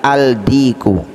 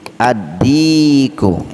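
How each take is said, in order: First: The article's l is pronounced clearly before d. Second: The article's l merges into a doubled d. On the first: The speaker calls it wrong. "tidak boleh kita baca al-diku, salah" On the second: The speaker calls it right. "Contohnya ad-diku"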